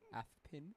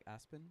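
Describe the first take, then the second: First: The s sound is lisped like th. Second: The s sound is a clear hiss.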